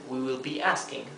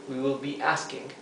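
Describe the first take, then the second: The two takes are said the same way.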